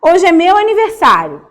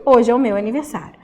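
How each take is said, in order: First: Reading the balloon line. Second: Said in the usual way. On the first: Shown as a demonstration. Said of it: "E aí tem lá embaixo". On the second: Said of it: "Esse porquê da explicação".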